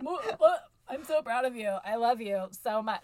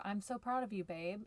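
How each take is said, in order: First: Forced awkward affection. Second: Said in the usual way. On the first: Retold or imitated. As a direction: choke out the compliment like it makes you ill. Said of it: "I wanna throw up when I say things like". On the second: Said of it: "that's all he wants is".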